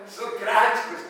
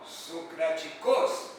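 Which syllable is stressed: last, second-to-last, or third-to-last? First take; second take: third-to-last; last. First: The stress is on the third-to-last syllable. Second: The stress is on the last syllable. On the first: "proparoxítona" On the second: "oxítona"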